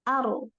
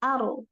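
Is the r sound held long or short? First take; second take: short; short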